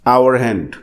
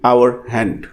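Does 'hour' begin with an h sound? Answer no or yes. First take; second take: no; no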